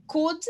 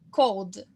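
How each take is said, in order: First: "Could" said short, no L, like "kud"; clipped "Could" with a silent L, "kud"; could vs cold. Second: "cold" with a clear O glide and L, "kowd"; could vs cold. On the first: Teacher models "Could" for students, no L sound. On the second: Teacher contrasts "cold" with could, "kowd". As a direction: round "cold" into "kowd", L heard. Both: Shown as a demonstration. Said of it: "pronúncia do could pra cold".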